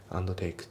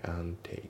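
First: "and take" as "ando teiku"; D pronounced. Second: "and take" as "an take"; dropped D. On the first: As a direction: add a full "do" to "and" in "and take". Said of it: "じゃなくて". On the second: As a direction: go from "an" straight into "take" with no D. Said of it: "Dが抜けますね". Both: Shown as a demonstration.

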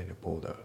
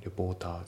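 First: Second レポーター with T turned to D; voiced T. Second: Said in the usual way. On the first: Shown as a demonstration. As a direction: soften the T of レポーター into a D. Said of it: "Dで濁りますね". (Tを濁らせてDにしたレポーター) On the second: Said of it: "レポーターじゃなくて".

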